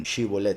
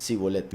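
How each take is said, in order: First: Shibolet said with a clear sh sound, shi-bo-let. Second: Sibolet said with a plain s sound, si-bo-let. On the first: Shown as a demonstration. Preacher showing the faithful's right way, Shibolet with sh. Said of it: "lo pronunciaban con Shin". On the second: Retold or imitated. Preacher showing Efraín's wrong way, Sibolet with s. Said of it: "lo pronunciaban con Samech".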